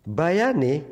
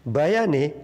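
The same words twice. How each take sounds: Both takes have the same delivery.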